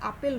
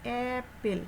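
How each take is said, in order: First: The first vowel is an open 'ah' sound. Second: The first vowel is a flat 'a' sound. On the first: The speaker calls it wrong. "কিন্তু আপেল না" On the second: The speaker calls it right. "এটার উচ্চারণ হচ্ছে অ্যাপেল"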